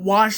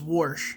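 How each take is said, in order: First: The word is said without an r sound. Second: The word is said with an r sound.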